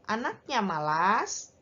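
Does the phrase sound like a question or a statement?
question. It is said with questioning intonation. It asks whether this is so. "kalau intonasinya diubah"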